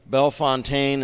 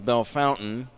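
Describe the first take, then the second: First: The ending sounds like French 'fontaine'. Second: The ending sounds like English 'fountain'.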